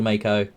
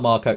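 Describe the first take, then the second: First: The name is said like Mako. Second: The name is said like Marco. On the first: The speaker calls it right. "It's called a Mako" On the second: The speaker calls it wrong. "It's not Marco"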